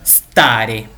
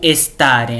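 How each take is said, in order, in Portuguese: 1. A palavra começa direto com o som de s. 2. Uma vogal e extra vem antes do s. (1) "a gente tem que começar a pronúncia do S" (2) "a gente vai querer colocar um E na frente"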